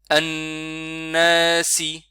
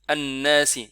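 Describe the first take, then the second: First: The N sound is held a little longer. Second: The N sound is short and not held. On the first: The speaker calls it right. "Noun avec shadda, on le tient un peu, un peu plus longtemps" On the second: The speaker calls it wrong. "et on fait pas An-nasi"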